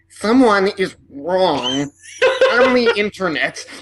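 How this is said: It is said in the manner of an internet troll.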